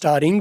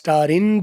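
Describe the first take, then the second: First: The final g sound is pronounced. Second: The final g sound is dropped. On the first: "आखिरी जी है आप silent कर लो तो भी ठीक है, ना करो तो भी ठीक है" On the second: "स्टारिन जो आखिरी जी है वो उड़ा दिया"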